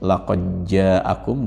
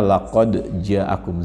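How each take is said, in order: First: The d sound merges into the following j. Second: The d sound is said clearly before j. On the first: "diidghamkan, namanya idgham mutaqaribain" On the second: "namanya fakul idgham atau tidak diidghamkan"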